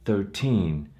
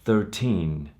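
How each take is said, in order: No difference in how they are said.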